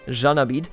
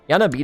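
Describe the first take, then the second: First: The name is pronounced in a French-sounding way. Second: The name is pronounced in an English-sounding way. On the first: "the more French pronunciation" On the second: "would also be okay for me"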